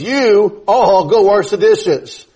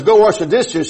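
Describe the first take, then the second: First: You all drawn out slowly before the command; stress on YOU ALL. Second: Said in the usual way. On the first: Retold or imitated. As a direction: stretch "You all" to show who is addressed. Spelling out the understood subject you.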